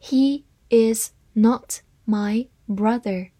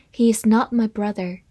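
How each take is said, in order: First: Slow, one word at a time; deliberate model reading for learners; slow read-aloud. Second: Said in the usual way. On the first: Shown as a demonstration. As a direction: read it slowly, pausing between words. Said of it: "好，慢慢来读".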